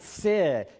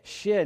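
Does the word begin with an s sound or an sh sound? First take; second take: s; sh. First: The word begins with a plain s sound. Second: The word begins with an sh sound. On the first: The speaker calls it wrong. "not sid" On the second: The speaker calls it right. "It's shh"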